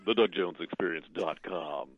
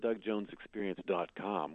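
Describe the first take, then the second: First: It is said in a low, announcer-like voice. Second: It is said in an ordinary speaking voice.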